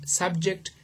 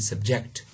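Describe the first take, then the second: First: The stress is on the first syllable. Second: The stress is on the second syllable. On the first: It is used as a noun. "they are all nouns here, okay, and the stress is on the first syllable" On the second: It is used as a different grammatical category. "the stress shifts to the second syllable"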